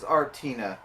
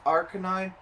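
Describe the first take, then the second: First: The name has a t sound, ending 'tina'. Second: The name has a k sound, ending 'nine'. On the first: The speaker calls it wrong. "they say it like the way that me and my little sister said it" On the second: The speaker calls it right. "it's it's Arcanine"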